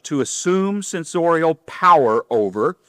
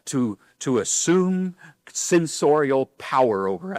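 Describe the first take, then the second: First: Said in the usual way. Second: Slow, formal mock reading of assume censorial power over; mock formal wording. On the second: Shown as a demonstration. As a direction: lean into the stiff words assume censorial power over, slowly. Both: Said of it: "I don't talk like that".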